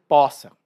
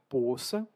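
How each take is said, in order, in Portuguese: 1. Tem a outra pronúncia vocálica regional. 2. Tem a pronúncia vocálica do sudeste brasileiro. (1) "outros brasileiros vão dizer poça" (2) "Alguns brasileiros vão pronunciar poça, predominantemente no sudeste do Brasil"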